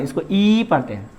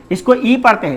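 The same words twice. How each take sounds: First: ई held for two beats, lower; long vowel. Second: ई said short, a single beat; short vowel. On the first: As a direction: stretch the ई to double length. ("ई" दोगुना खींचकर) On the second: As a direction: keep the ई brief in the phrase. ("ई" छोटा, एक मात्रा में) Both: Shown as a demonstration. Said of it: "थोड़ा double sound बोलना पड़ेगा".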